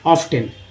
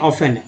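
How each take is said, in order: First: The t sound is pronounced in the middle. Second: The t sound is silent in the middle. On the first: The speaker calls it wrong. "O F टी E N को लोग ऑफ्टन पढ़ दे रहे हैं" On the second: The speaker calls it right. "यहाँ F silent होता है"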